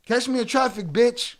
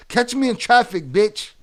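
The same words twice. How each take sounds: The two takes are said the same way.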